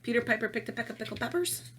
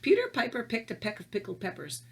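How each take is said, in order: First: It is said at a normal pace. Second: It is said slowly and deliberately.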